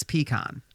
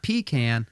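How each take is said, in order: First: "pecan" with a long PEE and an open AH in the second syllable; mixed pecan. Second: "pecan" with a long PEE and the vowel of "can"; Northern pecan. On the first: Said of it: "I mix the two together". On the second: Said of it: "since I'm not fully north on it yet". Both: Shown as a demonstration.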